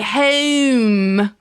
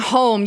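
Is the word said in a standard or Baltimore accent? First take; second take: Baltimore; standard. First: It is said with a Baltimore accent. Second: It is said with a standard accent.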